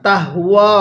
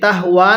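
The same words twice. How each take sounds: First: The vowel is stretched out long. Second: The vowel is said short, without stretching. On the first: The speaker calls it right. "টান দেন" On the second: The speaker calls it wrong. "অনেকে আমরা তাহওয়া এরকম ভাবে উচ্চারণ করি, তাহওয়া না"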